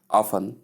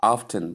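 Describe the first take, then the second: First: "often" as OFF-un, silent T; T left out. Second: "often" as OFF-tun, T heard; T sounded. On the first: Teacher contrasts two ways of saying often, silent T. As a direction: go straight from F to N in "often". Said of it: "it's correct to say". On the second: Teacher contrasts two ways of saying often, T pronounced. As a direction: put a clear T after the F in "often". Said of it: "It's also correct to say". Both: Shown as a demonstration.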